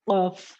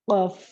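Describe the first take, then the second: Both takes have the same delivery.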